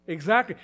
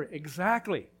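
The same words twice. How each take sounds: First: Exactly said louder with a rising tune; emphatic agreement. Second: Said in the usual way. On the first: Real, not acted. Preacher affirms the grumblers' point, emphatic rise. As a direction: punch the word Exactly.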